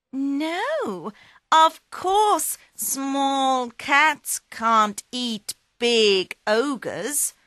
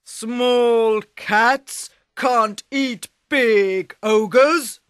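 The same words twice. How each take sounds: First: Higher, slow cat voice; sly cat. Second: Slow, loud ogre voice; scornful ogre. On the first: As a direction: agree sweetly, setting a trap. Puss agrees slyly. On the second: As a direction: boom it like a smug giant. Ogre scoffs at cat. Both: Acted.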